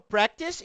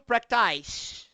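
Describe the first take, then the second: First: The first vowel is a short a sound. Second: The first vowel is a long ay sound. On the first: The speaker calls it right. "eu falo practice" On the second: The speaker calls it wrong. "e não practice"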